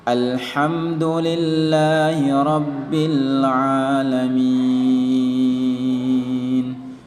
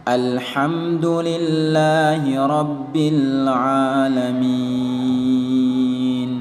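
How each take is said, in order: Both takes have the same delivery.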